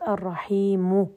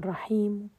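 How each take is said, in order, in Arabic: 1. تُنطق الحركة الأخيرة كاملةً وواضحةً. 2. تُنطق الحركة الأخيرة بخفوت فقط، بصوت منخفض جداً. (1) "هذه ضم خالص" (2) "وخفضت الصوت فيها"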